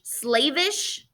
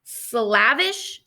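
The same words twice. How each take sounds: First: "Slavish" as SLAY-vish, questioning; long-a pronunciation. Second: "Slavish" with the vowel of "slap", questioning; short-a pronunciation. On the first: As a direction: say "Slavish" with the vowel of "slave". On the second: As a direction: say "Slavish" as SLAV-ish, unsure. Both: Shown as a demonstration. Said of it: "I think it says slavish".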